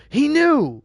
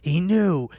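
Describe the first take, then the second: First: Much higher and louder, unhinged cry; maniac shriek. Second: Lightly unhinged repeat, a bit higher; maniac voice. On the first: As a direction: let the panic burst out. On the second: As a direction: say it like the thought is sinking in. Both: Acted. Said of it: "maniac voice".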